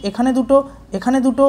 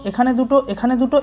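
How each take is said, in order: Both takes have the same delivery.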